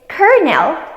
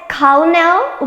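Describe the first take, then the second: First: The middle is said with an R sound. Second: The middle is said with an L sound. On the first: The speaker calls it right. "The correct pronunciation is colonel with an R sound" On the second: The speaker calls it wrong. "with an L sound"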